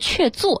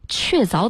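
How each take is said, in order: First: The second syllable is pronounced zuo. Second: The second syllable is pronounced zao. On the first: This is how it used to be said. "过去呢都是确做，这个音念做" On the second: This is how most people now say it. "确凿的凿字大家都这样读"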